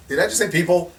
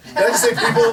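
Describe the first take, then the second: First: Laughing disbelief. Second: Much higher and louder, laughing; louder laughing disbelief. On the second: To the officials, laughing at their question, much higher and louder. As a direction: repeat it through laughter, high and loud. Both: Real, not acted.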